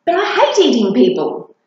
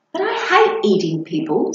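First: A moaning, fed-up complaint; groaning. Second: Said in the usual way. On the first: A narrator's reading. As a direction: groan it out in protest. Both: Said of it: "groaned Monty".

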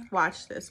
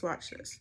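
First: Said in the usual way. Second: Breathy whispered "Watch this"; whispering. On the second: Shown as a demonstration. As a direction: whisper it like a secret. Whispered take before the reveal.

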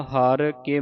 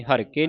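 First: ਹਰ ਕੇ slow, as two words; separated words. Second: ਹਰ ਕੇ joined as one word; wrongly run together. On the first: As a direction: space out ਹਰ, then ਕੇ. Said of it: "ਵੱਖਰਾ ਵੱਖਰਾ ਪਾਠ ਉਚਾਰਨ ਕਰਨਾ ਹੈ". (ਹਰ ਕੇ ਵੱਖਰਾ ਵੱਖਰਾ) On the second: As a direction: rush ਹਰ ਕੇ together without a gap. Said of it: "ਹਰ ਕੇ ਨਹੀਂ ਕਹਿ ਦੇਣਾ". (ਹਰ ਕੇ ਜੋੜ ਕੇ) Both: Shown as a demonstration.

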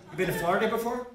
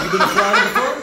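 First: Said in the usual way. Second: High, loud, gleeful ask; excited question. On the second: Shown as a demonstration. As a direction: pop the question up high with a laugh.

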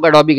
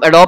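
First: Adobe said in three syllables, ending in "bee". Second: Adobe said in two syllables, silent final e; Adobe as "a-DOB". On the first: Teacher shows the correct variant, Adobe as "a-DO-bee". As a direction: sound the final e of Adobe as "ee". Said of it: "वैसे Adobe सही है". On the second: Teacher shows how some people say it, Adobe as "a-DOB". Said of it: "कुछ लोग Adobe कहते हैं". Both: Shown as a demonstration.

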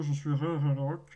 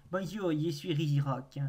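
First: Louder, put-on robot-golem voice; mock Rigirock voice. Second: Said in the usual way. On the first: Streamer playing Rigirock greeting viewers, mock golem voice. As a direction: boom it out as the stone golem. Plays the Pokémon introducing itself.

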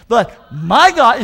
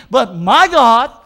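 First: "my" stretched and loud, slowly; stress on my again. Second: "my" drawn out and loud, slowly; stress on my. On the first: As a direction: call back "but my God", hitting "my". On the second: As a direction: lean hard on "my" in "But my God". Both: Shown as a demonstration. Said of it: "say it with me".

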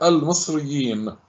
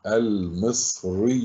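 First: Said in the usual way. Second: المصريين drawn out slowly and softly; slow reading. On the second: Shown as a demonstration. Teacher reading المصريين first before analysing it, slow and careful. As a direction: read المصريين unhurriedly, stretching each part. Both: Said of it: "اقرأها أولًا على مهل".

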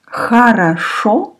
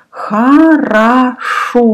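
First: Said in the usual way. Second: Хорошо slowly drawn out, stressing the final O; stress on last O. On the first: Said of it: "means good". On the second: Shown as a demonstration. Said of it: "One O is stressed, last one".

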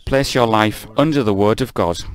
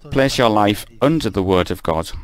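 No difference in how they are said.

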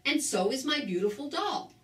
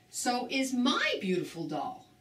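First: Said in the usual way. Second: "my" picked out with a lift in pitch; stress on MY. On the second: A narrator's reading. Harry echoes Betty Lou about his doll, stress on "my". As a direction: lean on "my" to claim the doll.

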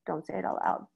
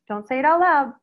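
First: Hushed. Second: Firm and loud, punching it out; emphatic. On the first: To the staff, quietly repeating the warning. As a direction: drop to a soft, low murmur. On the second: To the staff, firmly warning them. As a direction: stress the warning hard. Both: Shown as a demonstration.

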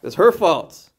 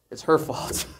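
First: Louder, higher accusation; mock blaming. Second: Hushed, voiceless aside; mock blaming. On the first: Adam points to his wife, mock blaming out loud. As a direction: pin the blame out loud. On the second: Adam points to his wife, mock blaming under his breath. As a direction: pin it on someone under your breath. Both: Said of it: "he points to his wife. He says".

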